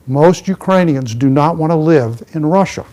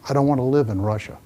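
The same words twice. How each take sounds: First: Louder, higher, pressing the point hard; rising loud declaration on "Russia"; emphatic raised voice. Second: Said in the usual way. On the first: Real, not acted. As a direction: proclaim it to the whole room. Speaker drives home the quote.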